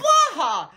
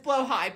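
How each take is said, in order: First: The word ends with a short 'ha' sound. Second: The word ends with a 'high' sound. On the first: It is bent to fit a joke. The speaker calls it wrong. "isn't really ha-ha funny, but is blaha" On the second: It is the proper name of the item. The speaker calls it right. "the correct pronunciation is blowhigh"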